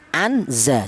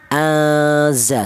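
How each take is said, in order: First: The n sound is pronounced clearly. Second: The n sound is hidden and blurred. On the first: The speaker calls it wrong. "jangan dibaca idhar atau jelas, jangan. Seperti contoh anza, jangan" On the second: The speaker calls it right. "nun mati ini disamarkan ya. Azza seperti itu"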